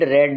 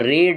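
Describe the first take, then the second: First: The vowel is a short 'e' sound. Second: The vowel is a long 'ee' sound. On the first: It is the past participle form of the verb. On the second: It is the present form of the verb.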